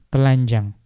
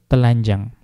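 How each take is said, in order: The two takes are said the same way.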